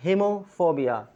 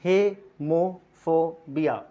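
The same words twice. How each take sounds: First: Hemophobia said clearly at normal pace; pronunciation demo. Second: Hemophobia drawn out very slowly, syllable by syllable; slow syllable demo. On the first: Teacher repeating hemophobia for learners, clear. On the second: Teacher spelling out hemophobia slowly for learners. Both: Shown as a demonstration. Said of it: "I repeat that".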